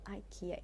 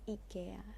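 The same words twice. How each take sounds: First: It is pronounced the usual English way. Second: It is pronounced the Swedish way. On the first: The speaker calls it wrong. "It's not IKEA" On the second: The speaker calls it right. "pronounce it like a Swedish guy"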